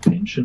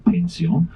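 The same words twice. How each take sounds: First: The word is pronounced the English way. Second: The word is pronounced the German way. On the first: "you would pronounce it pension" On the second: "but we say pension"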